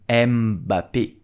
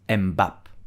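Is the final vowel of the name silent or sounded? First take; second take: sounded; silent. First: The final vowel is clearly sounded as 'ay'. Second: The final vowel is dropped or left silent. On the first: The speaker calls it right. "You have an accent at the end, so you will pronounce E" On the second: The speaker calls it wrong. "and not"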